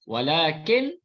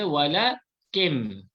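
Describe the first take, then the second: First: The word ends with a plain n sound. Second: The final n becomes a nasalised m sound. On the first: "asalnya nun" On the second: "tukar kepada bunyi mim"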